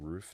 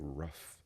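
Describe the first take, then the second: First: The word has a long oo vowel. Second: The word has a short uh vowel. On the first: "Instead of saying roof" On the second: "a Florida thing or a southern thing"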